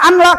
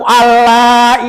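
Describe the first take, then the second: First: The n sound is pronounced clearly before l. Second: The n sound merges into the following l. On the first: The speaker calls it wrong. "jangan dibaca an la" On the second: The speaker calls it right. "dimasukkan n-nya seolah-olah dari segi pembacaan tidak ada huruf n"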